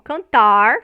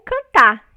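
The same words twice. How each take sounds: First: The final R is a curled-back retroflex R. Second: The final R is not pronounced. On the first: "como é pronunciado pelo, vamos dizer assim, o caipira lá de São Paulo" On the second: "sem o R"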